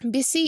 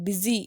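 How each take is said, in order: First: The middle consonant is a hissing s sound. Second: The middle consonant is a buzzing z sound. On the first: The speaker calls it wrong. "பிஸி அப்படின்னு சொல்ல மாட்டோம்" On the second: The speaker calls it right. "பிஸி அப்படின்னு தான் சொல்லுவோம்"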